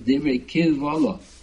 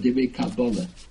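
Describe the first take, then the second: First: The second word is pronounced kivolo. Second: The second word is pronounced kabbalah. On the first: "the correct pronunciation is" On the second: "How do you pronounce that word"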